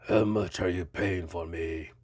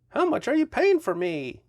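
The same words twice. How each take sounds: First: Put-on low monster voice with a muddled Romanian-like accent; Frankenstein's monster. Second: High, put-on voice for the toy; toy speaking up. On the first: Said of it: "Was that a Romanian accent?". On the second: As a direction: pipe up as the little figure. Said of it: "Wait, I'm sorry, it's Frankenstein".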